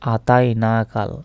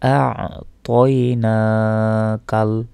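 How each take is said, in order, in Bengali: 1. গলার ব্যঞ্জনটি লোপ পেয়েছে, স্বরগুলো একসঙ্গে মিশে যায়। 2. গলার ব্যঞ্জনটি ত-এর আগে স্পষ্টভাবে উচ্চারিত হয়। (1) "আমরা অনেকে ভুল উচ্চারণ করে বলি যে আতাই না কাল" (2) "তা উচ্চারণটা হবে আ তয় না কাল"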